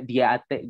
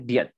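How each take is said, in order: First: The syllable is said like 'dee-ate'. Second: The syllable is said like 'diet'. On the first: The speaker calls it wrong. "gak dibaca diate gitu" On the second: The speaker calls it right. "Tapi bacanya diet gitu"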